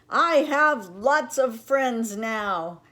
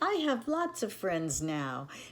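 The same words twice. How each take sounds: First: It is said very loudly. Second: It is said at a quieter, normal level.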